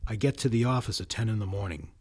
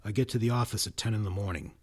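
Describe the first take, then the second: Both takes have the same delivery.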